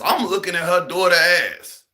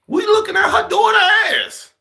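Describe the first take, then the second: First: Said in the usual way. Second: Comic shout. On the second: Acted. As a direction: blurt it out at full volume. Punchline shout.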